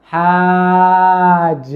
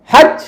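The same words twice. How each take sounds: First: হাজ with the vowel stretched very long; হাজ said very slowly, vowel held; wrong drawn-out হাজ. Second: হাজ cut short, pitched higher; short হাজ with no stretched vowel; quick correct হাজ. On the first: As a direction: drag out the middle of হাজ on one level note. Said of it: "হাজ এরকম না". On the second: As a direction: say হাজ in one quick high syllable. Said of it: "দ্রুত". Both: Shown as a demonstration.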